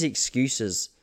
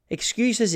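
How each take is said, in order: First: Said in the usual way. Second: Mocking excuses. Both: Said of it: "we don't wanna hear excuses".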